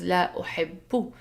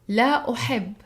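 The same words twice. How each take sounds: First: The verb ends with a vowel after the b. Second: The verb ends on a bare b sound. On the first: This is the formal grammatical form. "the proper grammatical structure is" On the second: This is the everyday spoken form. "I say b at the end because I'm speaking"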